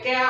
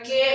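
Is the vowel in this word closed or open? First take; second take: open; closed. First: The vowel is an open ae sound. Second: The vowel is a closed e sound. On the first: The speaker calls it wrong. "কে হবে না" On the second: The speaker calls it right. "এখানে কে হবে"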